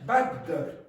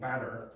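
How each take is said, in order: First: The middle consonant is held long and doubled. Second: The middle consonant is short and single. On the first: "they will produce the two uh, consonant sounds here" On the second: "instead of saying batter"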